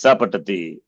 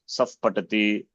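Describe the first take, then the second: First: 'Sa' ends cleanly with no puff before 'patati'. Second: A breathy puff follows 'sa' before 'patati'. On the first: The speaker calls it right. "it is sa patati" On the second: The speaker calls it wrong. "Never in dream also you don't say saf"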